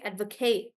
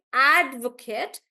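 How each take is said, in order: First: "advocate" as ad-vo-KATE, weight at the end; full KATE vowel closing "advocate"; verb stress. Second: Strong AD, weak "kut" in "advocate"; noun stress. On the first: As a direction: stress the last syllable of "advocate". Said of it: "I'm stressing on the last part". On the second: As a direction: punch the first syllable of "advocate". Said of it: "I'm not saying advocate". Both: Shown as a demonstration.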